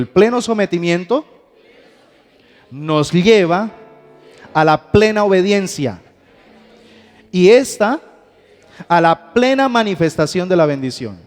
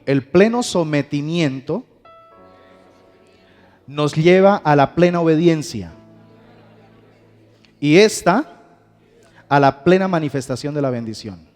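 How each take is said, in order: First: It is said with strong conviction. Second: It is said plainly, without special conviction.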